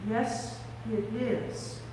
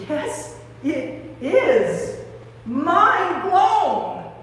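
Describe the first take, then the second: First: Very soft, halting wonder; hushed recognition. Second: Growing amazement. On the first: Mary first recognising Jesus, in a hush. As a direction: say it under your breath, awed. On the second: Mary sure it is Jesus, amazed and building. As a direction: build emphatically into open amazement. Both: Acted.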